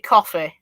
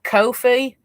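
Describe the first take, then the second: First: It is said like the drink, coffee. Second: It is said 'koh-fee', rhyming with no fee. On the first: "I know it's supposed to be coffee" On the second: "it rhymes with no fee, so that'd make make it Ko-fi"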